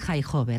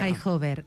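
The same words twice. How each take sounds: First: The first H is a harsh throaty sound. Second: The first H is a light breathy sound. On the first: The speaker calls it right. "I les H pronunciades com si fos una jota catalana" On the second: The speaker calls it wrong.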